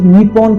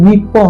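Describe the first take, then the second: First: It is said the way an English reader would. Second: It is said with a native Japanese pronunciation. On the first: The speaker calls it wrong. "इसे निप्पॉन करके प्रोनाउंस करोगे" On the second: The speaker calls it right. "इसकी असली pronunciation निप्पो है, जो कि जापानीज़ में होती है"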